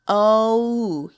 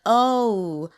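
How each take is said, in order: The two takes are said the same way.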